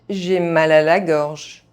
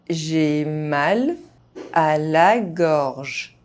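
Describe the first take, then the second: First: The phrase is spoken fast, sounds reduced. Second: The phrase is spoken at normal speed. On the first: This is how native speakers say it. "fast, as a native speaker would do" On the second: This is the pace learners should use. "at a normal pace"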